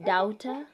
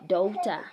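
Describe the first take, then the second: First: The vowel is not an 'oh' sound. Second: The vowel is an 'oh' sound. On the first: The speaker calls it wrong. "We don't say daughter" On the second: The speaker calls it right. "We say daughter"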